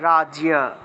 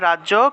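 First: A clear 'ya' glide follows the consonant. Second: The consonant is doubled with no 'ya' glide. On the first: This is the Sanskrit pronunciation. "সংস্কৃতে উচ্চারণটা হবে রাজিয়া" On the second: This is the Bengali pronunciation. "বাংলায় বললে রাজ্য"

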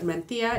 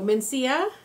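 First: The c is pronounced like a th sound. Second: The c is pronounced like an s sound. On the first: "is how they would do it in Spain" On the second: "is how you would pronounce it in English"

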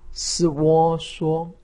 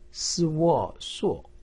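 First: The pitch stays high and level. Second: The pitch falls sharply from high. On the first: "一声" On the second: "四声"

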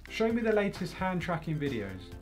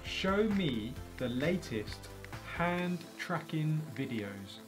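First: The words are mumbled in a casual voice. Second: The words are carefully over-articulated. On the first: "in my normal, just mumbly voice" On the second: "I had to overpronounce the word"

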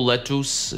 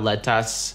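First: The second syllable has an 'oo'-like vowel, 'us'. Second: The second syllable has an open 'a' vowel, 'as'. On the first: "Никакого тут «у» нету" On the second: "никакого тут «а»"

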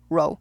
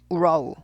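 First: The word is said quickly in one beat. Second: The word is drawn out into three beats. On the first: The speaker calls it right. "러우 한 번에 해야 돼요" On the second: The speaker calls it wrong. "우러우 이러면 세 박자잖아요"

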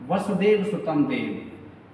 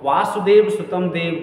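First: The first vowel of the first word is short. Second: The first vowel of the first word is long. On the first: The speaker calls it right. "वासुदेव नहीं बोलना है" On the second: The speaker calls it wrong. "ज़्यादातर लोग ... ऐसे बोलते हैं, जो कि अशुद्ध है"

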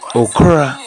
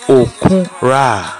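First: It is said quickly with two syllables. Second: It is said fully with three syllables. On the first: "my people pronounce it very fast" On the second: "It's okura"

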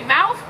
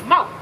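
First: The word ends with a TH sound. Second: The word ends without a TH sound. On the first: "You say mouth, with the TH sound" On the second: "Gullah says mouth"

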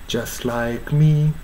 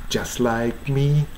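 The two takes are said the same way.

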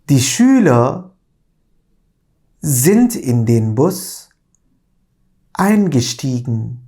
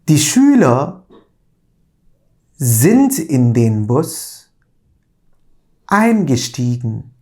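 Both takes have the same delivery.

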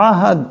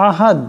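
Both takes have the same delivery.

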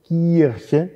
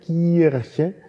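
The two takes are said the same way.

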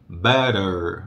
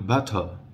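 First: The t sounds are flapped, almost like r. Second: It is said with a British accent.

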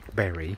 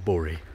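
First: The name is said the speaker's usual non-northern way. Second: The name is said the way northerners say it. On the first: "I'm going to pronounce it Berry, because I'm, like, normal" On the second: "I know you northerners like to call it Bury"

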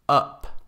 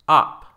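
First: The vowel is the short English 'uh' sound. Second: The vowel is an open Spanish-like 'ah'. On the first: The speaker calls it right. "and then the English" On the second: The speaker calls it wrong. "with the Spanish ah"

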